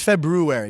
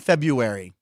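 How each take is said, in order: First: The first r sound is pronounced. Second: The first r sound is dropped. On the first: "but it's February. Did you put the R in there?" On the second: "I say February"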